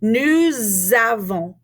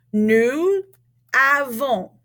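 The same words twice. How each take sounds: First: "Nous avons" slowly linked with a z sound; z liaison. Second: "Nous" with silent s, a pause, then "avons"; words said separately. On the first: Teacher says listen, models "Nous avons" with slow z liaison. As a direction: draw out "Nous" into a z before "avons". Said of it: "turn it into a Z". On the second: Teacher introducing the verb form, "Nous avons" said word by word. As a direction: keep "Nous" and "avons" apart, no z between. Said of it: "because we have a vowel sound". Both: Shown as a demonstration.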